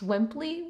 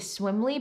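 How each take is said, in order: First: A p sound is heard before the l. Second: There is no p sound before the l. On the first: The speaker calls it right. "So I would assume it's pronounced Swimply" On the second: The speaker calls it wrong. "I keep wanting to say Swimly, but that is almost definitely not what it's actually called"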